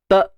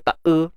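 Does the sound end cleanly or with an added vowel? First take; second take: ends cleanly; added vowel. First: The consonant is held with no vowel after it. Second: A short extra vowel follows the consonant. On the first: The speaker calls it right. "tahan suara" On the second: The speaker calls it wrong. "jangan ditawalludkan, jangan dita e"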